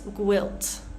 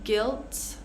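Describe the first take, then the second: First: A w sound follows the g. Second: The g goes straight into the vowel. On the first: The speaker calls it wrong. "we want to avoid making like a guilt, gwilt" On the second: The speaker calls it right. "we're just going to ignore the U and pronounce the next vowel"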